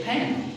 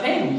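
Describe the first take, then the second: First: "pen" with a puff of air after the P; aspirated P. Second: "pen" with no puff of air on the P; unaspirated P. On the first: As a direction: say "pen" with a breathy burst on the P. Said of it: "There is aspiration". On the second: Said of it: "It's not pen". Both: Shown as a demonstration.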